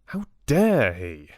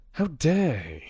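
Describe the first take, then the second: First: "dare" stretched out and loud; emphatic outrage. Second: Higher indignant question, evenly delivered; indignant outrage. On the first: Richard fumes at Maddock, with a drawn-out, louder "dare". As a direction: lean long and hard on "dare". Repeats outrage with more force. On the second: Richard rages about Maddock to Bella, indignant and higher. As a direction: start high on "How dare he?", affronted. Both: Acted.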